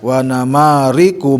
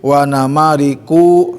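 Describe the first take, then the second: First: The final syllable ku is short. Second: The final syllable ku is drawn out long. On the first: The speaker calls it right. "Ku tidak boleh panjang" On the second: The speaker calls it wrong. "jangan sampai"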